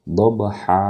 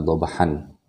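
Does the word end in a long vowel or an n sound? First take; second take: long vowel; n sound. First: The word ends with a long open vowel. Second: The word ends with a short vowel and n. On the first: The speaker calls it right. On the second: The speaker calls it wrong.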